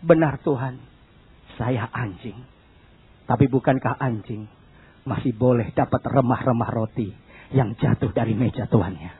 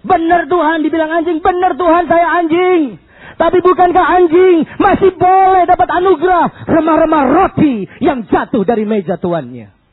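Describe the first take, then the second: First: Very low, soft, halting answer; subdued, submissive murmur; humble woman's reply. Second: High, loud impassioned cry; fervent shouted plea to the Lord; woman's bold reply. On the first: Retold or imitated. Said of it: "Wanita bilang apa?". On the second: Shown as a demonstration. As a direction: declaim it at full force, easing at the end.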